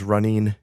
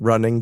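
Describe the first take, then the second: First: The ending is pronounced like 'een'. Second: The ending is pronounced as a standard 'ing'.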